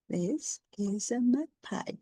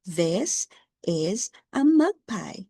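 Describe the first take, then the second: First: Said in the usual way. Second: Slow model reading. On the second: Shown as a demonstration. Teacher models the sentence slowly for James. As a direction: say it slowly so he can copy. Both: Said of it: "Can you read it?".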